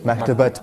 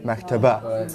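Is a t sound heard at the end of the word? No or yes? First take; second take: yes; no. First: The word ends with a clear t sound. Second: The word ends in a vowel with no t. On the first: Another word follows and is linked to it. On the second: Nothing follows the word.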